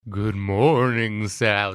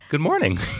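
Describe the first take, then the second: First: It is said in a Dracula impression voice. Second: It is said in his normal own voice.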